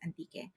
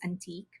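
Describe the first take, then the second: First: It is said with a Filipino pronunciation. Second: It is said with an English pronunciation. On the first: "in the Philippines, we call it antique. We pronounce it antique" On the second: "If you read it in English, it's just antique"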